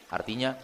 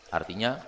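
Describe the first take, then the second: No difference in how they are said.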